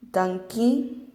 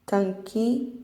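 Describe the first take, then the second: No difference in how they are said.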